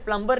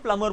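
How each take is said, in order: First: A b sound is heard after the m. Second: No b sound is heard after the m. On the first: The speaker calls it wrong. "इसे प्लम्बर नहीं बोलते" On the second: The speaker calls it right. "प्लमर बोलते हो"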